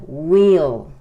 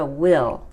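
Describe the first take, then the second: First: "will" said "weel", long ee; pronounced "we'll". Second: "will" with a short i; the word "will". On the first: Teacher showing how the contraction is pronounced, "will" as a long "weel". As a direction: draw out "will" loudly as "weel". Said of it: "Se pronuncia will". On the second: Teacher showing how it is not pronounced, short-vowel "will". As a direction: say "will" short, as in the future auxiliary. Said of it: "No se pronuncia como la palabra will". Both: Shown as a demonstration.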